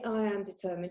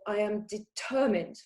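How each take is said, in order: First: It is said flatly, without emotion. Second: It is said with strong emotion.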